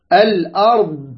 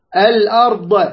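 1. ينتهي الحرف الأخير بوضوح دون صدى. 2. ينتهي الحرف الأخير بصدى يرتد. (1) "الأرض لا تقلقل" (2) "لاحظ هذه تبح عليها، فضل خطأ"

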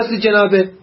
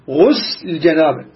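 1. الكلمة الأولى فيها الفتحة بعد الغين. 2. الكلمة الأولى فيها الضمة بعد الغين. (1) "لا تقول" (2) "فقل غسل"

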